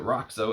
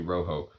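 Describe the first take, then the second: First: The middle consonant sounds like a hard ks. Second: The middle consonant is a soft sound. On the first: The speaker calls it wrong. "When I unboxed it, I said, "Is that R O X O? Is it Roxo?"" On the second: The speaker calls it right. "It's actually Rojo"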